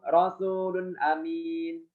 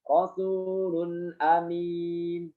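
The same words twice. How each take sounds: First: The nun is rushed and clipped very short. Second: The nun is given its full, clear length. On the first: The speaker calls it wrong. "Cepat membacanya dengan sepertiga harokat" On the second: The speaker calls it right. "Yang benar bagaimana?"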